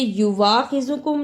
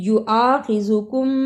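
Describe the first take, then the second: First: A 'w' sound follows the first syllable. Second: A glottal stop follows the first syllable. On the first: The speaker calls it wrong. "इसे युवाखिज़ुकुम नहीं पढ़ना" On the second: The speaker calls it right. "हमजा की आवाज आनी है"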